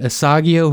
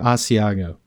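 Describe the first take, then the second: First: The g sound comes before the i sound. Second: The i sound comes before the g sound. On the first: The speaker calls it wrong. "I've always pronounced Asiago bread Asagio" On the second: The speaker calls it right. "she's probably right"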